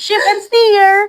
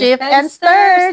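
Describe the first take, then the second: First: The last word rhymes with 'here'. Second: The last word rhymes with 'her'. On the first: The speaker calls it wrong. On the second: The speaker calls it right.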